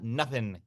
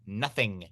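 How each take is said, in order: First: The ending is clipped to 'in' without g. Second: The ending is a full 'ing' sound. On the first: The speaker calls it wrong. "Not nothing" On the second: The speaker calls it right. "There's an ing at the end"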